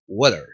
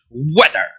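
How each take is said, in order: First: Low, relaxed "weather" with a weak schwa ending; correct pronunciation. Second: Loud, chewed "weather" ending in an open A; wrong pronunciation. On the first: Teacher correcting the bad version, smooth right weather. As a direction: glide through "weather" without chewing it. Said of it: "Es weather". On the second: Teacher showing what not to say, overdone wrong weather. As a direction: hit "weather" hard as "WE-dar". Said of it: "en vez de decir weather". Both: Shown as a demonstration.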